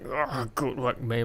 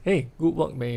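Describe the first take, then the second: First: It sounds strained, as if under heavy effort. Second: It sounds relaxed and neutral, without strain.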